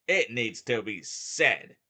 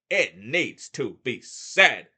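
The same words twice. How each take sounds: First: Said in the usual way. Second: "It needs to be said." much louder and slower, each word hit; loud, deliberate insistence; emphatic repeat. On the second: Real, not acted. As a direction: hammer the point home.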